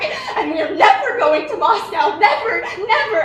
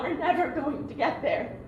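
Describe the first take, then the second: First: Despairing cry. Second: Softer, sinking, laughing through it; resigned. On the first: Despair over never reaching Moscow. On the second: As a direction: let "never" sink away, softer, defeated. Despair fading after the outcry. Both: Acted.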